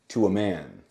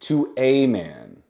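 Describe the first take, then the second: First: The word 'a' is a short 'uh' sound. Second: The word 'a' is a long 'ay' sound. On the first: "the most common pronunciation of this letter is uh" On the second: "But you can say to a man if you want"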